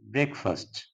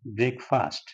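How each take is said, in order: First: The first syllable is said as 'brek'. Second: The first syllable is said as 'brake'. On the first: The speaker calls it right. "First word is breakfast" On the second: The speaker calls it wrong. "That is commonly pronounced as breakfast. That is wrong"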